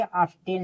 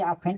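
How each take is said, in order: First: "ऑफ्टेन" with an audible t; T sounded. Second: "ऑफेन" with f and no t; silent-t reading of "ऑफेन". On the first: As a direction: say "ऑफ्टेन" with the ft cluster. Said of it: "ऑफ्टेन नहीं". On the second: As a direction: say "ऑफेन", f straight into -en. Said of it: "इसे ऑफेन पढ़ेंगे". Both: Shown as a demonstration.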